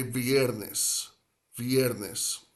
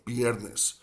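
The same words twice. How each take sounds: First: Viernes with a soft lip-teeth v, slow. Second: Viernes said as "biernes" with a full b; b sound viernes. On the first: Teacher demonstrating a soft v, careful slow pronunciation. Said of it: "grip the lower lip with the top teeth". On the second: Teacher imitating buddies' b sound, mild demo. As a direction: push out the b in viernes, lips together. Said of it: "They'll just say b". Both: Shown as a demonstration.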